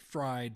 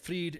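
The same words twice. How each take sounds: First: The name is said like English 'fried'. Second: The name is said with a German pronunciation. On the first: "some people like to say fried" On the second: "I know pronouncing it correctly in German"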